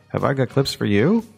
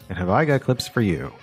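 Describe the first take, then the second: First: It sounds like a real question, ending high. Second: It sounds like an exclamation, ending low.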